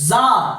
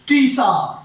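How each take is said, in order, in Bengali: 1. শব্দটি শুরু হয় সাধারণ z ধ্বনি দিয়ে। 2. শব্দটি শুরু হয় স্পষ্ট t ধ্বনি দিয়ে। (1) "উচ্চারণটা হচ্ছে জার" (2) "টিসার নয়"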